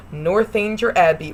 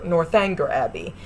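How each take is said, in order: First: "Northanger" said as north-AIN-jer; soft-g pronunciation. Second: "Northanger" said as north-ANG-ger; hard-g pronunciation. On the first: Reviewer giving one of two ways, "Northanger" as north-AIN-jer. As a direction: say "Northanger" with a long a and a j sound. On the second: Reviewer giving the other way, "Northanger" as north-ANG-ger. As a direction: say "Northanger" like north plus anger. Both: Shown as a demonstration. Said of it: "pronounced two different ways".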